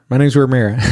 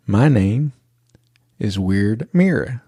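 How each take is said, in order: First: "My name's Ramira" run together quickly, louder; rushed name, imitated. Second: Imitated child spacing out each part with long pauses; slowed right down. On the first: Little girl telling the driver her name, rushed and run together. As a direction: blurt the name out in one quick burst. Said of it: "why don't you slow it down a little bit". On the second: Little girl obeying her dad, slow and deliberate. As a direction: say the name slowly and deliberately. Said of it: "slow it down a little bit so people can understand".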